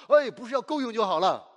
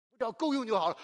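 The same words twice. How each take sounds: First: Louder rebuke, 哎 punched at the start; firm correction. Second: Mock self-pity, settling for 够用; mock meek self-pity. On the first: Shown as a demonstration. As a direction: reject the idea of 够用 with force. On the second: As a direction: play the small-minded poor believer, mildly. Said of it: "不要总是觉得".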